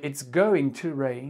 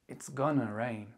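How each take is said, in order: First: Going to is said as two full words. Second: Going to is contracted quickly into gonna. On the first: "Au lieu de dire" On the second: "il peut se contracter à l'oral en gonna... en plus rapide"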